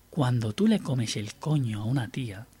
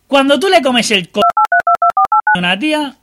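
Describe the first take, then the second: First: It is said in a softer, gentler voice. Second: It is said in a normal, unsoftened voice.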